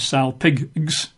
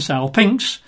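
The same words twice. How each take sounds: First: The ending sounds like 'gx', with a g. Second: The ending sounds like 'nx', with an n. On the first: The speaker calls it wrong. "you don't pronounce it as salpinx" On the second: The speaker calls it right. "it's pronounced with an I-N-X at the end"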